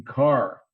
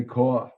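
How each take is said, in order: First: Car with a clear final R; R pronounced in car. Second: Car said the Brooklyn way, as caw; R dropped from car. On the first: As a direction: sound the R at the end of car. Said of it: "make sure I pronounced the R". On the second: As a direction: drop the final R in car. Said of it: "didn't say caw". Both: Shown as a demonstration.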